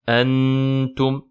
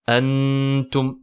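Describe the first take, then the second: First: The n is pronounced clearly and fully. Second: The same.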